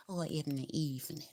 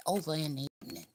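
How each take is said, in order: First: Said in the usual way. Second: Southern accent. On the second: Shown as a demonstration. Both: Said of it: "My southern accent".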